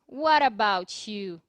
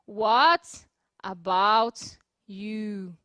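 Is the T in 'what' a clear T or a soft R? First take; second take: soft R; clear T. First: The T becomes a soft R linked to 'about'. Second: The T is clear and the words are separated. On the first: "eu estou transformando esse T num R" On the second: "Perceberam que eu não tô falando assim"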